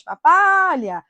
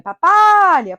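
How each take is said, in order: First: "Papalha" lento e enfático, com ênfase na sílaba "pa"; tônica no pa, devagar. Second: "Papalha" com a sílaba "pa" do meio mais alta e forte; tônica no pa. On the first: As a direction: alongue "Papalha" e marque bem a penúltima sílaba. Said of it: "paroxítona terminada em ditongo crescente". ("Papalha" devagar, com a penúltima sílaba em destaque) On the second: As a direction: bata na penúltima sílaba de "Papalha". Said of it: "Se a sílaba tônica for o segundo par". (pronúncia paroxítona de "Papalha", com destaque na sílaba "pa") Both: Shown as a demonstration.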